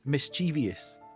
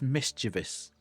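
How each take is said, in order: First: The ending has an extra 'ee-us' sound. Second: The ending is a plain 'vus' sound. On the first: The speaker calls it wrong. "not mischievous. There is no I O U S" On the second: The speaker calls it right. "The word is mischievous, ... it's only O U S"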